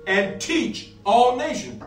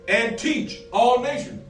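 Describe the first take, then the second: No difference in how they are said.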